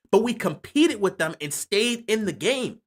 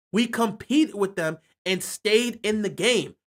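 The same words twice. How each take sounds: First: Said in the usual way. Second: Slowed down, each word weighed; slow emphatic repeat. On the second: Shown as a demonstration. Fan repeating his point to viewers, slow and emphatic. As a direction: drive the point home slowly.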